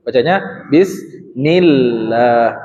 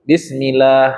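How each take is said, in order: First: Bismillah slowly, with the doubled l pressed; correct reading. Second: Bismillah read the wrong way, plain and unstressed. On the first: Teacher gives the class the correct reading, slowly. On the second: Teacher models the forbidden reading of bismillah. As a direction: show bismillah with no pressure on the l. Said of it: "tidak boleh". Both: Shown as a demonstration.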